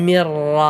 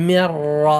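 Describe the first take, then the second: The two takes are said the same way.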